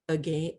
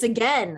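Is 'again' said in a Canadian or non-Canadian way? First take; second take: Canadian; non-Canadian. First: It is said in a Canadian way. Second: It is said in a non-Canadian way. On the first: "a weird Canadian way of saying something" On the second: "People are like, it's again"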